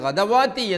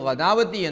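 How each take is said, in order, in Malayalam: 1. w ശബ്ദം നീണ്ട സ്വരത്തിന് മുമ്പേ വരുന്നു. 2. നീണ്ട സ്വരം w ശബ്ദത്തിന് മുമ്പേ വരുന്നു. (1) "ഓതരുത്" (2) "ഓതരുത്"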